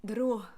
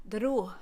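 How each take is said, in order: No difference in how they are said.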